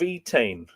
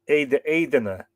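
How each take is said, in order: First: The name is pronounced like Etain. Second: The name is pronounced like Aidena. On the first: The speaker calls it wrong. "apparently I've totally butchered that pronunciation" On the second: The speaker calls it right. "Middle Irish pronunciation would be more like"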